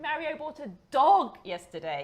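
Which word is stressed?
dog. The word dog carries the main stress. It was a dog, not a frog.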